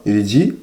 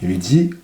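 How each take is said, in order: Both takes have the same delivery.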